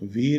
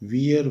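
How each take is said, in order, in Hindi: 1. यह एक शब्दांश में बोला जाता है, 'veer' जैसे। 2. यह दो हिस्सों में बोला जाता है, 'wee-er' जैसे। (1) "वीर नहीं बोला जाता" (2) "इसको बोलते हैं वियर"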